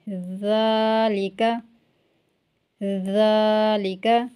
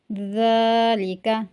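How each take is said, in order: First: ज़ालिका with a clear z sound and long drawn आ; slow model reading of ज़ालिका, z not d; correct Quranic pronunciation. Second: ज़ालिका said with a hard d, as दालिका; deliberately wrong ज़ालिका, d sound instead of z; wrong pronunciation. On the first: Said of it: "पढ़ेंगे". (ज़ालिका को सही ज़ की आवाज़ से धीरे पढ़ना) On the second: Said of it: "इसको ज़ालिका नहीं पढ़ेंगे". (ज़ालिका को द की आवाज़ से गलत पढ़ना) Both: Shown as a demonstration.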